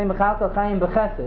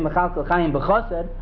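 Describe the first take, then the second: First: The last word has its ordinary mid-phrase vowel. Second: The last word has its changed end-of-verse vowel. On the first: The phrase continues without a break. The speaker calls it right. "We say Mechal Kochayim Bechesed" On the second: The phrase marks the end of a verse. The speaker calls it wrong. "We don't say Mechal Kochayim Bechosed"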